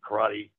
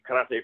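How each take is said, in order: First: It is said in the popular American way. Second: It is said in the older, originally learned way. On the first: This is how the general public came to say it. "until everybody else started pronouncing it karate" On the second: This is how the speaker's group first said it. "we pronounced it karate for a long time"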